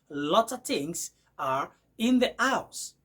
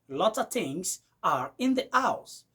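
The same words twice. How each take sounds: First: 'Lot of' is blended into 'lotta'. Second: 'Lot of' is blended into 'lotta'.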